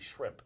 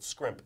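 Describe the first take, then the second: First: The word begins with an 'sh' sound. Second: The word begins with an 'sk' sound. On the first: The speaker calls it right. "It's actually shrimp" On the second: The speaker calls it wrong. "You were pronouncing it scrimp"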